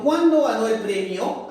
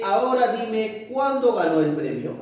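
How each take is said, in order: First: "¿Cuándo ganó el premio?" asked with a rising end; direct question. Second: "cuándo ganó el premio" falling like a statement; implied question, let "premio" drop at the end; indirect question. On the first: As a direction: pitch up on "Cuándo", rise again on "premio". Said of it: "cuando la oración es interrogativa directa". (pregunta directa, "premio" con entonación ascendente) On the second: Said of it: "se sobreentiende como una pregunta". (pregunta indirecta, "premio" con final descendente) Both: Shown as a demonstration.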